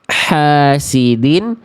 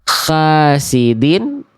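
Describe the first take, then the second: First: It begins with a tight h from the throat. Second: It begins with a raspy, kh-like h sound. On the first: The speaker calls it right. "Yang tepat adalah yang yang A ya" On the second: The speaker calls it wrong. "ada semi-semi huruf kh-nya di sana"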